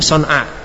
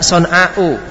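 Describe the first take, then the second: First: The word ends on the vowel without a stop. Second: A glottal stop follows the long final vowel. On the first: "Dibaca koser tanpa hamzah karena darurat sair" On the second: "Asal kata son'a adalah son'a'u. Ada hamzanya ya, alif mamduda"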